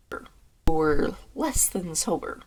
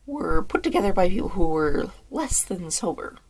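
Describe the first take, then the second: First: Very slow, deliberate re-take; drawn-out slow reading. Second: Said in the usual way. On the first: Shown as a demonstration. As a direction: stretch every word of less than sober.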